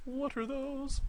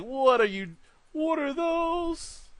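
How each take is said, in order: First: High, softer "What are those?"; high meme squeal. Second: High, mocking "what are those", stretched slow on "those"; mock viewer squawk. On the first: Pretend. Repeating the meme to viewers, a high soft squeal. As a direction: toss the meme line up high and light. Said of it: "repeats the meme line". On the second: Telling viewers what they're thinking, a high mocking squeal. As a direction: squeal it like a shocked meme. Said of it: "you're probably thinking, like".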